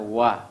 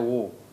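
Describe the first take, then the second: First: The vowel is light and open, like a. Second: The vowel is dark and rounded, like o. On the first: The speaker calls it right. "Yang ada adalah wa" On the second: The speaker calls it wrong. "tidak pernah ada wo"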